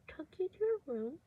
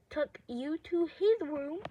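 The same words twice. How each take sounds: First: Said in the usual way. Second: Slow correction leaning on "his"; "his" stressed to correct a slip. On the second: Shown as a demonstration. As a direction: put the weight on "his", drawn out.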